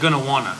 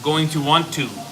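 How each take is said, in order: First: The words are reduced and run together quickly. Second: Each word is said fully and separately.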